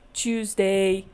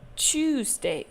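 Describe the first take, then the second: First: The stress is on the second syllable. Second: The stress is on the first syllable. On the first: The speaker calls it wrong. "we don't say" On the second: The speaker calls it right. "so the stress is there"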